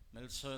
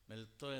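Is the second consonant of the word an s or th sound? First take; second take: s; th. First: The second consonant is an s sound. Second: The second consonant is a th sound. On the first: "മെൽസോ എന്ന് പറഞ്ഞാൽ വചനം" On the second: "മെൽത്തോ എന്നാണ് ഇവിടെ ഉച്ചരിച്ചിരിക്കുന്നത്"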